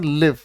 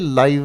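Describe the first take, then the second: First: The vowel is a short 'i' sound. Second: The vowel is a long 'eye' sound. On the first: "आप इसे पढ़ेंगे sir लिव" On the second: "मैं कहूंगा sir ये लाइव है"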